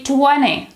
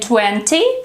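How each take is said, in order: First: The T after N is dropped. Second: The T after N is clearly pronounced. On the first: The speaker calls it right. "the T disappears" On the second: The speaker calls it wrong. "instead of saying"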